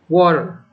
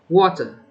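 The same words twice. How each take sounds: First: It is said in an American accent. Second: It is said in a British accent. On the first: "the first number is the American pronunciation accent" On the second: "the second one is the British pronunciation accent"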